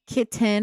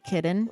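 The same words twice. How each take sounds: First: The middle T is clearly pronounced. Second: The middle T is dropped or swallowed. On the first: This is how the more posh local dialect says it. "they pronounce their T's" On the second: This is how the speaker's own dialect says it. "I say kitten"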